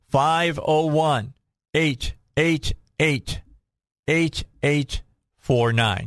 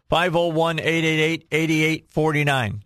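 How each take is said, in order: First: The number is said slowly. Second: The number is said fast.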